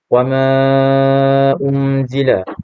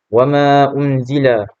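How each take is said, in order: First: The long vowel is held for four beats. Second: The long vowel is held for two beats. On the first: "apabila dibaca secara tawassut dibaca sepanjang empat harakat" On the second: "apabila dikosarkan hanya dibaca sebanyak dua harakat"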